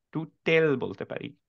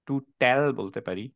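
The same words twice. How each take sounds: First: টুটেল with an oo in the first part and a short e in the second part; a teacher offering a second misreading, টুটেল; alternative reading. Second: টুটাল with an oo in the first part and an aa in the second part; a teacher listing one possible misreading, টুটাল; reading option. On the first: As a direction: say টুটেল as too-tel, a bit slowly. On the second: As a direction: say টুটাল as too-taal, a bit slowly. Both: Shown as a demonstration. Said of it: "আমরা এটাকে টুটাল বলতে পারি".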